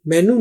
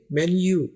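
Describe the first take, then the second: First: मेनू said as plain "menoo", no y sound; the wrong way: मेनू with a pure oo; wrong menu. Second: मेन्यू said "men-yoo" with a clear y glide; North American menu. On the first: Teacher showing students the wrong मेनू. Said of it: "मेनू नहीं पढ़ेंगे". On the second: Teacher modelling the correct मेन्यू for students. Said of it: "मेन्यू बोला जाता है नॉर्थ America में". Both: Shown as a demonstration.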